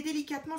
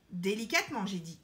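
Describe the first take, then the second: First: Said in the usual way. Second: "Délicatement" set apart, then falling away; insistent repeat. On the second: A narrator's reading. Queen correcting the elephant, insistent on "Délicatement". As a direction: stress "Délicatement" as a firm reminder.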